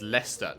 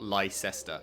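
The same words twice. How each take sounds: First: It is said short, with two syllables. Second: It is said as spelled, with three syllables. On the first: The speaker calls it right. "this is Leicester" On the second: The speaker calls it wrong. "not Leicester"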